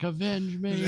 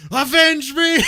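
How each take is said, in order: First: Overacted death scene. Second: High, loud shouted last words; hammed-up dying shout; overacted death scene. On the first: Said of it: "He'd be like". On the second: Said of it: "he just kinda spouts up with energy".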